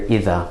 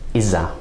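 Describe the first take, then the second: First: The middle consonant is a soft 'th' sound. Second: The middle consonant is a 'z' sound.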